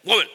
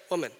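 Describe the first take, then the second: First: Curt mock address; brusque one-word summons; rude address. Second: Soft, low single word; softened, respectful address; gentle address. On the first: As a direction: toss the word off rudely. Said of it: "that's not like". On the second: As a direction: say it kindly and quietly. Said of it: "That's like". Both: Shown as a demonstration.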